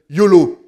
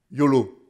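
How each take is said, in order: First: Loud, falling yolo; youthful yolo shout. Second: Said in the usual way. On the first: Retold or imitated. Preacher imitates young people shouting their motto yolo. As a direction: call out yolo like a carefree teen. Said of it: "Et, et les jeunes disent".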